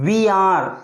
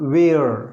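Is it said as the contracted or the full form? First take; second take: full; contracted. First: Two separate words are said in full. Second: The two words are merged into one syllable.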